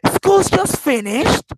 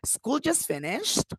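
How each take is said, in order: First: It is said in a surprised tone. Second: It is said as a question. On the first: The news is unexpected. "it means that I am surprised about this news" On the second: The speaker is asking whether it is true. "Or the questions"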